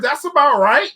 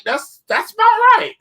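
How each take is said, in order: First: Said in the usual way. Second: Much higher and slower, a put-on falsetto; mock high voice. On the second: Vlogger joking to viewers about inflation, mock high voice. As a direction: stretch it out way up high as a joke.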